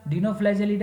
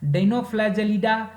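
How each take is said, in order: First: Said in the usual way. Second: Dinoflagellida slowly, each part distinct; careful pronunciation. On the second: Shown as a demonstration. Teacher introducing an order to students, careful pronunciation. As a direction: spell out Dinoflagellida by ear, unhurried. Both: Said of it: "pronunciation पे ध्यान दीजिएगा".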